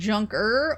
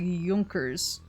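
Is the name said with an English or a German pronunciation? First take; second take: English; German. First: The name is said with an English pronunciation. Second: The name is said with a German pronunciation. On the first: "as in Junker" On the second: "the German pronunciation"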